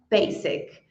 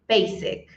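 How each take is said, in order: No difference in how they are said.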